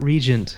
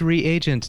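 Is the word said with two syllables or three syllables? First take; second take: two; three. First: The word is said with two syllables. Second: The word is said with three syllables. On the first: The speaker calls it wrong. "not regent" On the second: The speaker calls it right. "But it is reagent"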